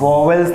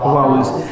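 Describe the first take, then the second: First: The word begins with 'voh' plus an extra syllable. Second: The word begins with 'vow' like 'bowels'. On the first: The speaker calls it wrong. "વોવેલ્સ નહીં કહેવાનું" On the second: The speaker calls it right. "બરાબર છે"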